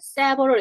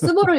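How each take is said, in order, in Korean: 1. 첫 모음은 분명한 'eh' 소리예요. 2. 첫 모음은 약하게 줄어든 'uh' 소리예요. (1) "얘는 세버럴 이렇게 하셔야 됩니다" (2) "스버럴 이러면 안 되고"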